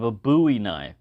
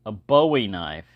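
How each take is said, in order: First: "Bowie" as BOO-ee; Texas pronunciation. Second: "Bowie" as BOH-ee, with a long O; unusual pronunciation. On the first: Shown as a demonstration. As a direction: say "Bowie" the Texan way, first syllable like "boo". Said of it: "the way it's pronounced here in Texas". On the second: Retold or imitated. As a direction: quote the odd version, "Bowie" rhyming with snowy. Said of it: "unusual to hear someone call it".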